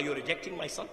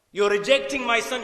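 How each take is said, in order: First: Low-key, softly spoken question; quiet, understated disbelief; subdued protest. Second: Raised, higher-pitched challenge; forceful acted disbelief; impassioned protest. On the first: Retold or imitated. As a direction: ask it softly, voice falling away. Father's first, subdued take of protest. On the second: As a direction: repeat it louder, as a pleading father's objection. Father repeats protest with force.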